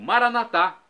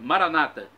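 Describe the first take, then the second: First: The stress is on the final syllable. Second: The stress is on the second-to-last syllable. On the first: This is how Catholics say it. "Nós católicos colocamos a tônica na última sílaba" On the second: This is how evangelicals or Protestants say it. "colocam a tônica na penúltima sílaba"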